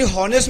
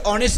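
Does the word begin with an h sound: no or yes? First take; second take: yes; no. First: The word starts with an audible h sound. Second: The word starts directly with a vowel sound. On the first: The speaker calls it wrong. "ते हॉनेस्ट नसतं" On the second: The speaker calls it right. "ते ऑनेस्ट असतं"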